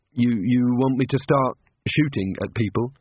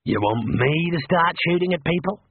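First: Said in the usual way. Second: Higher, in a mimicking voice, ending in a rise; a sarcastic copy of Rincewind's fuss; mocking echo. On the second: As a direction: parrot his panicked question back at him. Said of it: "said Mad".

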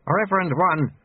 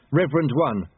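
First: REVEREND ONE prompted in higher pitch; old master supplying the missing title; lightly voiced, higher-pitched correction; prompting sweeper. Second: Lightly voiced apprentice, falling at the end; slightly raised, dutiful repeat; apprentice completing sentence. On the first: Lutze prompts the proper title. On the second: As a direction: finish obediently with the title. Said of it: "Lobsang finished". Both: A narrator's reading.

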